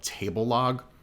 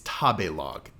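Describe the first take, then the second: First: The name begins with the word 'table'. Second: The name begins with 'tabe', without an 'l'. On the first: The speaker calls it wrong. "I was wrong" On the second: The speaker calls it right. "It's Tabelog"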